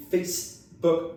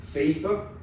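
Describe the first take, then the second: First: "Facebook" slow, Portuguese way, extra vowel at the end; Brazilian-style Facebook. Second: "Facebook" in English, final K barely sounded; relaxed English Facebook. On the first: Teacher mocking the Portuguese "Facebook". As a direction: drag out "Facebook" like a Brazilian would. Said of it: "no português a gente precisa ainda daquele Facebook". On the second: Teacher demoing lazy English "Facebook". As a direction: say "Facebook" the English way, K almost dropped. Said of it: "Quase nem falei o som do K no final". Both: Shown as a demonstration.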